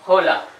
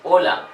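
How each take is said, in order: First: The word begins with an audible h sound. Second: The word begins directly with the vowel sound. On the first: The speaker calls it wrong. "not hola" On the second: The speaker calls it right. "H is always silent in Spanish"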